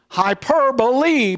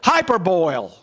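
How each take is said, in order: First: The word ends with two syllables, 'buh-lee'. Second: The word ends with a one-syllable 'boil' sound. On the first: The speaker calls it right. "hyperbole is pronounced that way" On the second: The speaker calls it wrong. "No, that's not the way it's pronounced"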